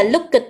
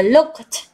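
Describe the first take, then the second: First: Looked with an extra it sound, like "luk-it"; wrong pronunciation. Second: Looked as one syllable ending in a clipped t; correct pronunciation. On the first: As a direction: say looked wrongly, adding an it syllable. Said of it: "điều đấy là hoàn toàn sai lầm". (đọc sai looked thành "lúc-ít") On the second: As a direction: say looked right, single syllable luk-t. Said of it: "Chúng ta phải đọc ngay". (đọc đúng looked một âm tiết, kết thúc bằng t) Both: Shown as a demonstration.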